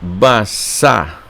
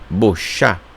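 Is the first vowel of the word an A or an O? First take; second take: A; O. First: The first vowel sounds like A. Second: The first vowel sounds like O. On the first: The speaker calls it wrong. "ou melhor" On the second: The speaker calls it right. "o que era som de A se torna som de O"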